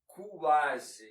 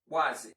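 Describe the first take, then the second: First: The u is drawn out as its own syllable. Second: The u is a quick glide into the vowel. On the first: The speaker calls it wrong. "you never split the syllables in quase, like" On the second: The speaker calls it right. "It's always quase"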